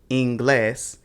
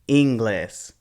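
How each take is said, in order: First: The stress is on the last syllable. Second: The stress is on the first syllable. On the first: The speaker calls it right. "these are pronounced" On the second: The speaker calls it wrong. "we put the stress on the second to last syllable, which happens to be the first one"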